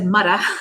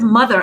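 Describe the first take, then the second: First: It is said in a heavy New York accent. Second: It is said in a neutral, standard accent. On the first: The speaker calls it wrong. "I said mudda" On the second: The speaker calls it right. "instead of mother"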